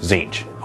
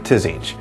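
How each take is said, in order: First: The name starts with a plain Z sound. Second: The name starts with a T-then-Z sound. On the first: The speaker calls it right. "the T Z sound to me makes a Z" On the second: The speaker calls it wrong. "some people actually say"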